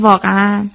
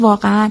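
First: It is said in a calm, confirming tone. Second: It is said in an astonished, surprised tone. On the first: The speaker agrees with what was said. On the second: The speaker is astonished by what was said.

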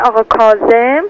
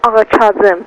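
First: The name is said with a Persian pronunciation. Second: The name is said with a Turkish accent. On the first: "فارسیش میشه" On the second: "اصلش به لهجه ترکی میگن"

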